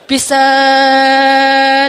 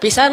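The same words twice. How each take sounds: First: The vowel is stretched out very long. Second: The vowel is said at ordinary length. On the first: It means something is extremely so. "saking pan panjangnya" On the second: It means something is only ordinarily so. "Kalau biasa aja"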